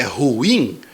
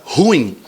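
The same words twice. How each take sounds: First: Ruim in two syllables, stress on im, ru-IM; correct pronunciation. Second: Ruim said as one syllable, RUIM; wrong pronunciation. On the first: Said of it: "a pronúncia correta é ruim". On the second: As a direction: demo the mistake: ruim squeezed into one syllable. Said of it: "você deveria falar ruim, mas está errado". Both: Shown as a demonstration.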